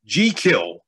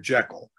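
First: The name is said the Scottish way. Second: The name is said the common, everyday way.

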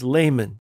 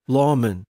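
First: It is said with an English pronunciation. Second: It is said with a Latin pronunciation.

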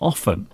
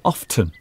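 First: The t sound is silent. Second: The t sound is pronounced. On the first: "I say often, ... So for me, the T is silent" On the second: "Steve says often"

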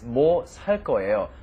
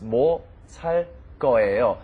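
First: 살 and 거예요 run together like one word. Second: 살 and 거예요 are said as separate words. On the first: "when you pronounce it, it's ... almost sounds like one word"

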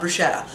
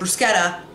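First: The middle consonant sounds like 'sh'. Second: The middle consonant sounds like 'sk'. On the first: The speaker calls it wrong. "not bruschetta" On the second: The speaker calls it right. "S-C-H makes a sk, like school"

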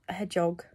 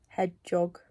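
No difference in how they are said.

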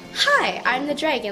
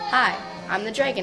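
First: It is said expressively, with emotion. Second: It is said flatly, without emotion.

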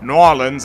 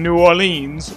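First: The city name is said the local way. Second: The city name is said in a non-local way.

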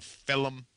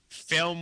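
First: The word is said in a thick New York accent. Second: The word is said in a standard accent.

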